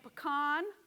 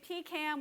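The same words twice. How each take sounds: First: Pecan is said the common general American way. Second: Pecan is said the Southern way. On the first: This is how most Americans say it. "seventy percent of Americans say pecan" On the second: This is how people in the South say it. "that is a Southern thing"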